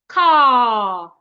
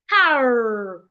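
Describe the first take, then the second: First: The final r sound is dropped. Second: The final r sound is clearly pronounced. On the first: "British will say car" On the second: "Americans will say car"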